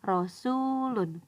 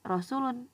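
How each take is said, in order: First: The middle vowel is held for two beats. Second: The middle vowel is held short. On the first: The speaker calls it right. "tetapi Rasulun. Dibaca dua harokat" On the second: The speaker calls it wrong. "Jadi bukan Rasulun"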